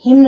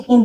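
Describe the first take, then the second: First: हिम्न with the N sounded, said louder; wrong pronunciation. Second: हिम with a silent N; correct pronunciation. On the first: Teacher shows students the wrong way. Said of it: "हिम्न नहीं बोलते". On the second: Teacher gives students the right way. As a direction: end हिम on the M, no N. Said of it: "हिम बोलते हैं". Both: Shown as a demonstration.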